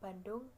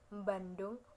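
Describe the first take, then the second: First: The word starts with a plain b sound. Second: The word starts with an m before the b. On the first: This is how standard Indonesian says it. "dalam bahasa Indonesia biasa kan tidak ada M-nya" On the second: This is how a Javanese speaker says it. "kalau orang Jawa itu masih ada depannya"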